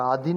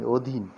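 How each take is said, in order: First: "अधीन" opened with a long aa, "aadhin"; wrong pronunciation. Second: "अधीन" opened with a short rounded o, "odhin"; correct pronunciation. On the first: Teacher rejects a mistake, अधीन said "aadhin". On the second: Teacher corrects the learner's word अधीन to "odhin". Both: Shown as a demonstration. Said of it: "अधीन नहीं".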